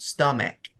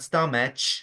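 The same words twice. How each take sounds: First: The word ends with a k sound. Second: The word ends with a ch sound. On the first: The speaker calls it right. "It's a K sound" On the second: The speaker calls it wrong. "Not stomach. It's not an ch sound"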